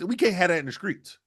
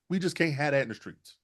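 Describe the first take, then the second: First: Higher, pushed out firmly; emphatic. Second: Softer repeat. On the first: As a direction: hammer it as a verdict. Repeats line, first take. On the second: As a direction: say it again quietly, settled. Repeats line, second take. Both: Real, not acted.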